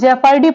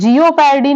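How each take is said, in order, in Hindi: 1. पहला अक्षर एक छोटी 'jep' आवाज़ है। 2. पहला अक्षर एक खिंची हुई 'jee-o' आवाज़ है। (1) "इसे जेपर्डी पढ़ते हैं" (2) "जियो पैरडी नहीं पढ़ते"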